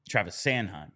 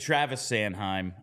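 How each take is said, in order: First: The last name gets extra emphasis. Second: The last name gets no extra emphasis. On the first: The speaker calls it right. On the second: The speaker calls it wrong.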